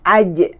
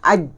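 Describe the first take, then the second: First: The final consonant is released with a bounce. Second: The final consonant is held without release. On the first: The speaker calls it right. "kita lepaskan. Aja, aja, aja. Baru dia jadi qalqalah" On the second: The speaker calls it wrong. "Kalau kita letak tidak lepaskan lidah, aj, ah, lekat situ"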